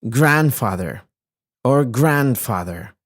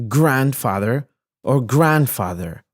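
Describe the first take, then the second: The two takes are said the same way.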